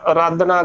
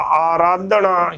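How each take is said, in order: First: ਆਰਾਧਨਾ begun on a short "a"; wrong short vowel. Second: ਆਰਾਧਨਾ with a full long opening "aa"; correct pronunciation. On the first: Teacher marking the wrong form, mispronunciation. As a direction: say ਆਰਾਧਨਾ as "a-raadhna". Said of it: "ਗਲਤ". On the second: Teacher giving the pure form, careful pronunciation. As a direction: open ਆਰਾਧਨਾ on "aa": "aa-raadhna". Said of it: "ਹੀ ਸ਼ੁੱਧ ਉਚਾਰਨ ਹੋਵੇਗਾ". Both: Shown as a demonstration.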